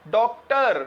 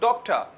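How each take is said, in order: First: The final r is clearly pronounced. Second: The final r is silent, British style.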